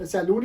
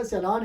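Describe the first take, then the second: First: सैलून as "sai-loon"; wrong "LOON" ending on सैलून; spelling misreading. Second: सैलान as "se-laan"; correct pronunciation. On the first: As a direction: say सैलून with a long oo, as written. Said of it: "सैलून ही पढ़ा है". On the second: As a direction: say सैलान with an open aa, pitched up. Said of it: "actual word तो ये". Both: Shown as a demonstration.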